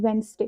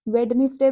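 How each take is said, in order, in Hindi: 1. बीच वाला d छोड़ दिया जाता है, इसलिए दो सिलेबल बनते हैं। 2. हर अक्षर बोला जाता है, बीच वाले d समेत। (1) "ये जो डी है ना, ये साइलेंट है।" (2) "वेडनेसडे बच्चे बोलते हैं इसको"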